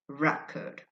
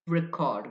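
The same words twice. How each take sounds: First: The stress is on the first syllable. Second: The stress is on the second syllable. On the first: It is a noun. "the stress on the first syllable" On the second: It is a verb. "if you stress the second syllable"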